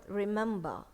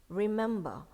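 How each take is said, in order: Both takes have the same delivery.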